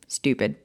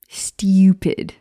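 First: It has no Y sound after the T. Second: It has a Y sound after the T. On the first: "instead of just stupid" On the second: "so much more fun to say it that way ... They're like a Y sound in there"

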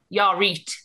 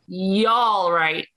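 First: The last word has an 'ee' vowel, 'reet'. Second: The last word has the 'eye' vowel, 'right'. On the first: "if you're in Leeds, you'd say" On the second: "But you just say"

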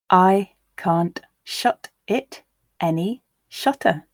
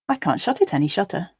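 First: The line is read at a slow pace. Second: The line is read at a natural pace. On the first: "once slowly for you to grasp the words" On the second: "and then once at a more natural pace"

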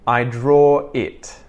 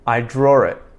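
First: The words are separated with no linking R. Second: The words are joined with a linking R. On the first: "I'm going to say the following sentences disconnected" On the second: "I'm going to connect it all together using the intrusive R"

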